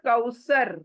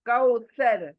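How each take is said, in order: First: The middle consonant is a plain s sound. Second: The middle consonant is a th sound. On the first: The speaker calls it wrong. "It is not कौसर" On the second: The speaker calls it right. "It is टी एच ए आर"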